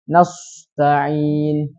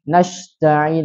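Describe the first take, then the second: First: The consonant after 'na' is an emphatic s. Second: The consonant after 'na' is a sh. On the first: "atau shad" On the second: "mengganti dengan huruf shin"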